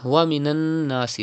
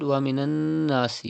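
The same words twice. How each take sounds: First: Said in the usual way. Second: ومن الناس with the doubled noon held through the nose; nasal ghunna on the noon of الناس. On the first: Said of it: "Look at this word". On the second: Shown as a demonstration. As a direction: hum the noon of الناس for two counts. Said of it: "You can see tashdid on noon".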